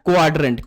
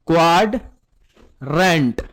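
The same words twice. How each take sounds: First: Said in the usual way. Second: Drawn-out, low quadrant said for pupils to repeat; slow modelled answer. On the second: Shown as a demonstration. Teacher models the answer to his pupils, slow and drawn out. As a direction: stretch every sound of quadrant slowly.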